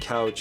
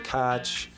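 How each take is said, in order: First: It is said in a standard American accent. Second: It is said in a Pittsburgh local accent. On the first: "Instead of saying couch" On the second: "you say couch"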